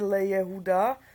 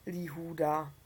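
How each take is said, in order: First: It begins le, followed by a separate Jehuda. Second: It begins li, merged with the following huda. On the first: This is the careless modern Hebrew reading. The speaker calls it wrong. "což by se asi vyslovilo v moderní hebrejštině nedbale" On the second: This is the correct reading with the vowel hireq. The speaker calls it right. "tam je zase chýrek"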